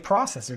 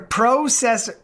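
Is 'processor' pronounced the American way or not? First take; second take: American; not American. First: It uses an American pronunciation of the word. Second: It uses the speaker's own non-American pronunciation.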